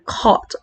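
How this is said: The r sound after the vowel is dropped. This is the British way of speaking. "hindi mo masyadong naririnig yung R"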